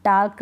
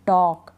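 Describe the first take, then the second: First: टाल्क with an open "aa" and clear L; L wrongly sounded. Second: टॉक with "aw" straight into K; silent L. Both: Shown as a demonstration. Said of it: "टाल्क नहीं".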